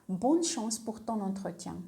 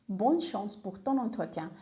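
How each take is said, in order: The two takes are said the same way.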